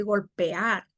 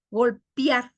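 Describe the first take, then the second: First: Said in the usual way. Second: "golpear" said as golpiar; hiatus made diphthong. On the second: Shown as a demonstration. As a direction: close the e to i in "golpear". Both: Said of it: "en vez de golpear".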